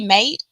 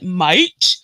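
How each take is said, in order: First: It is said in a natural British accent. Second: It is said in an exaggerated fake British accent. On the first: The speaker calls it right. "we say mate" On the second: The speaker calls it wrong. "an American doing an English accent would be like"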